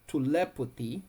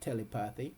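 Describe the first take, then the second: First: It uses the standard American pronunciation. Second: It is pronounced closely following the spelling. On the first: This is the pronunciation others give for the word. "they said the way you pronounce it is telepathy" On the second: This is the speaker's own pronunciation, based on the spelling. "I say telepathy, okay, um, uh, because it's spelled T E L E P A T H Y"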